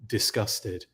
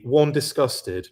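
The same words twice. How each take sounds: First: "disgusted" lower and softer, a falling deadpan repeat. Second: "disgusted" drawn out slow and a bit louder, first of two; mock emphatic. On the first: Acted. Punchline about the messy table, low deadpan "disgusted". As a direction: drop "disgusted" flat and quiet the second time. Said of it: "and two". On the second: Joking about the messy table, slow emphatic "disgusted". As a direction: lean on "one, disgusted" slowly. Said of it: "if you could see this table".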